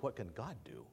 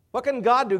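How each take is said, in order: First: Quiet. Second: Loud, high and emphatic. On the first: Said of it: "The question is". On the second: Pastor challenging the congregation, loud and emphatic. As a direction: fling the question out to the hall. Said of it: "What can the Holy Spirit do?". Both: Shown as a demonstration.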